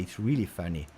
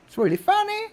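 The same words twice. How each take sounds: First: Said in the usual way. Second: Put-on very high, squeaky English-accent parody; mock English accent.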